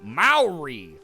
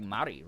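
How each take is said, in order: First: The word gets an anglicized American pronunciation. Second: The word is said closer to the Maori pronunciation. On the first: The speaker calls it wrong. "one of those obnoxious Americans who's like" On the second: The speaker calls it right. "I think it's like Maori, right?"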